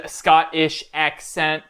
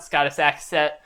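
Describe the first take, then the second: First: "Scottish" said carefully with a clear "-ish" ending; slowly fix it to "Scottish", the "sh" fully sounded; self-correction, stretched out; corrected pronunciation. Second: "Scottish" slurred to "Scottus", the "sh" dropped; sloppy pronunciation. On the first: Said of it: "I gotta do better at talking". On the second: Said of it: "Ugh, Scottish accent". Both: Shown as a demonstration.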